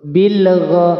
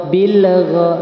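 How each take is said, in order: No difference in how they are said.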